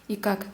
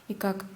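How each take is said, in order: No difference in how they are said.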